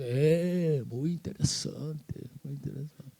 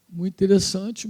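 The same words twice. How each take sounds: First: Soft, slow, skeptical murmur; mock the family's polite disinterest; unimpressed brush-off. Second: Said in the usual way. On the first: Family shrugs off his vision.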